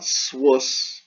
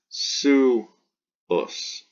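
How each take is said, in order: First: "swus" squeezed into one syllable with a w glide; mispronounced "swus", the u turned into w; wrong one-syllable version. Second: "suus" split slowly into su, pause, us; "suus" broken apart, su... us; two syllables. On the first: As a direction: say "swus" as a single beat. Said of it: "It's not swus". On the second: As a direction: draw out "suus" as two separate beats. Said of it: "So two syllables". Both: Shown as a demonstration.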